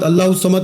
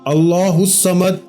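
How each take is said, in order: First: It is said quickly, with the words run together. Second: It is said slowly, each word clearly separated. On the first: The speaker calls it wrong. "बहुत सारे लोग भला कैसे पढ़ते हैं ... खुदारा ऐसे नहीं पढ़ना" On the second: The speaker calls it right. "जैसे मैंने जिक्र किया है, एक एक लफ्ज अलग अलग करके"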